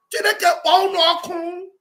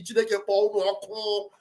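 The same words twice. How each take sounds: First: "Chineke kpọọ unu ọkụ" thrown out higher and louder; shouted curse. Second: A curse under the breath; muttered curse. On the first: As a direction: hurl the curse at full voice. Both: Retold or imitated. Cursing the movement's enemies.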